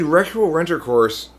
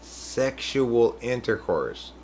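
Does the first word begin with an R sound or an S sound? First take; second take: R sound; S sound. First: The first word begins with an R sound. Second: The first word begins with an S sound. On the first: The speaker calls it wrong. "I got used to saying it like that" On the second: The speaker calls it right. "I tried to correct him"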